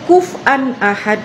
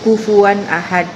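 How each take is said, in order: First: The middle syllable is dropped and contracted. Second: The middle syllable is fully pronounced. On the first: Other tribes could only say it this way. "mereka bisanya kuf'an ahad" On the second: This is the standard reading. "Misalkan nih ya"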